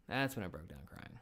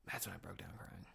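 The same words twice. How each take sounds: First: Said in the usual way. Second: "That's when I broke down crying" in a soft whisper. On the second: Shown as a demonstration. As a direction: breathe the line almost voiceless, softer. Repeats the line, first whispered.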